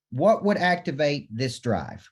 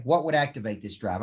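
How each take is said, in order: First: Slow, weighty, every word leaned on; drawn out to make the room think; slow emphatic question. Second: Said in the usual way. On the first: Shown as a demonstration. Coach posing the key question to the crowd, slow and weighty. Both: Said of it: "Okay. What would activate this drive?".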